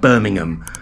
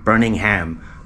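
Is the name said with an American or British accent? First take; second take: British; American. First: The name is said with a British accent. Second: The name is said with an American accent. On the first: "it's called Birmingham" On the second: "When they pronounce it Birmingham"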